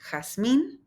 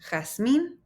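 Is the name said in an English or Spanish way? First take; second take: Spanish; Spanish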